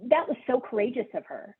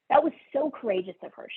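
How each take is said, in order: First: Said in the usual way. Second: That was so courageous of her, rushed out higher and faster; emphatic fast repeat. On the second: Shown as a demonstration. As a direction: repeat it quickly with rising admiration.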